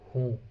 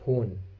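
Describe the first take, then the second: First: The vowel is nasalized with no full n. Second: The word ends with a full n sound. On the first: The speaker calls it right. "we are pronouncing it with nasal sound" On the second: The speaker calls it wrong. "we cannot pronounce it hoon"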